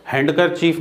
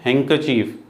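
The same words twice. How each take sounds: First: हैंडकरचीफ with a clear d before the k; D wrongly sounded. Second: हैंकरचीफ as "hang-ker-chief"; silent D. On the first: (हैंडकरचीफ में डी का गलत उच्चारण) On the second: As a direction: drop the d in हैंकरचीफ. (हैंकरचीफ में डी silent) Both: Shown as a demonstration. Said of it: "हैंडकरचीफ नहीं है".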